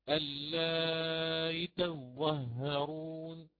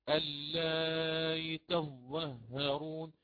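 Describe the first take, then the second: Both takes have the same delivery.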